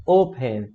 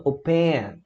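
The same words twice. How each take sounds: First: "open" stressed on the first syllable; tônica no O. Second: "open" wrongly stressed on the last syllable; tônica na última sílaba. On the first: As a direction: say "open" with the weight on O. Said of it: "a sílaba tônica é a O". ("open" com tônica no O) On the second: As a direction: say "open" punching a drawn-out PEN. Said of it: "e não open". ("open" com tônica no PEN) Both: Shown as a demonstration.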